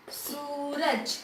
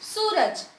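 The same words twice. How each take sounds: First: सूरज very slow and soft, सू stretched; drawn-out long u. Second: Said in the usual way. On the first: Shown as a demonstration. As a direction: draw out the सू in सूरज. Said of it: "जिस मात्रा को खींचा जाएगा वो बड़ी". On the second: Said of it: "क्या लिखा मैंने?".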